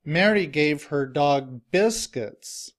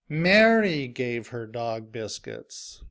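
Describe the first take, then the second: First: The stress falls on the word biscuits. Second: The stress falls on the word Mary. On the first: Biscuits, not something else, were what the dog got. "the stress is now on the word biscuits" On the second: It was this person, not another, who gave them. "I stress Mary because I want to emphasize who is giving her dog biscuits"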